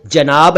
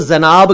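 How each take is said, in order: First: जनाब said as "janaab"; correct j sound. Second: जनाब said as "zanaab"; wrong z sound. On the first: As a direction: begin जनाब with j, not z. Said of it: "ये शब्द जनाब है". (जनाब का सही उच्चारण, ज से) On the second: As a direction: begin जनाब with z instead of j. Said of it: "ऐसा प्लीज ना किया करें". (जनाब का ग़लत उच्चारण, ज़ से) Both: Shown as a demonstration.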